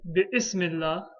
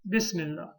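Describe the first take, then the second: First: A glottal stop separates bi from ismi. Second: Bi links straight into smi without a stop. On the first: The speaker calls it wrong. "We don't say" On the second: The speaker calls it right. "We say"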